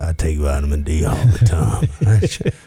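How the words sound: It is said in a suggestive, creepy tone. "That's a little creepy"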